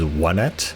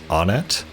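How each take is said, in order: First: The first syllable sounds like 'won'. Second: The first syllable sounds like 'oh'. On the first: The speaker calls it right. "the correct pronunciation is Onett" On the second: The speaker calls it wrong. "all this time ever since Smash Brothers, I called the place Onett"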